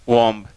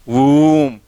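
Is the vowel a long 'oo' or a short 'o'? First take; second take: short o; long oo. First: The vowel is a short 'o' sound. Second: The vowel is a long 'oo' sound. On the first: The speaker calls it wrong. "नो" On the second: The speaker calls it right. "इसमें long ऊ का है"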